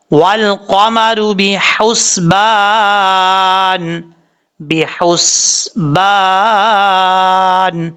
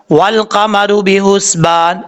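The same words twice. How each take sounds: First: بحسبان chanted very slowly with a light ہا; correct recitation. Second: بحسبان with a heavy ہا, read slowly; wrong reading. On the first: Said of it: "اس طریقے سے پڑھنا ہے". (ہلکی ہا کے ساتھ آہستہ تلاوت) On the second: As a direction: show the mistake with a heavy ha. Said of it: "لوگ غلطی کیا کرتے ہیں". (بحسبان میں ہا بھاری کر کے غلط پڑھنا) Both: Shown as a demonstration.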